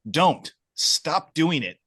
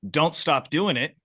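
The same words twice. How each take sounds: First: There is a pause after "don't". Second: It is said without a pause after "don't". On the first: Stop it, the listener dislikes it. "I don't like this" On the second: Keep going, the listener likes it. "I love this"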